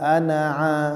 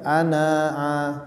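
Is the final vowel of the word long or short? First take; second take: short; long. First: The final vowel is kept short. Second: The final vowel is drawn out long. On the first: The speaker calls it right. "Itu dibaca pendek" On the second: The speaker calls it wrong.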